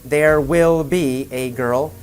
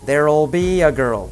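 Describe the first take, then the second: First: Will is said in full as a separate word. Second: Will is reduced and joined to there.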